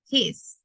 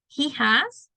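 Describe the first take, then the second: First: The two words merge into one short syllable. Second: Both words are said fully and separately.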